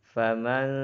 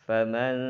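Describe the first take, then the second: Both takes have the same delivery.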